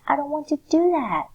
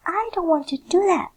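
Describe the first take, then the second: First: Loud, high scream of refusal; demo scream. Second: High, loud screamed refusal; demo scream. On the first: Teacher demonstrates reading the line as a scream. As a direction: yell it out, refusing. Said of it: "the way you have to read the sentence is by screaming". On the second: Teacher shows students how to scream the line. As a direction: shriek it like a child refusing. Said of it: "you scream". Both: Shown as a demonstration.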